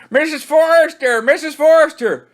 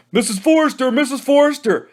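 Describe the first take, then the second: First: Higher and louder, desperate call; frantic louder kid shout. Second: High tattling call; shouting. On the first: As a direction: scream it to reach the house. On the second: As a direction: shout for her at full lungs. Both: Acted. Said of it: "shouted at the top of their lungs".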